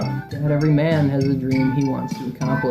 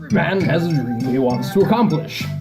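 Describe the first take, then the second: First: It is read flatly, with little feeling. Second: It is read with more dramatic feeling.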